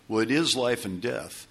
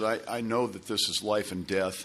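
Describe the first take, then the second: First: "is" lifted above the other words; stress on IS. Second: Said in the usual way. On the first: Retold or imitated. Friend confirms to Tom how serious it is, stress on "is". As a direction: lean firmly on "is" to confirm it.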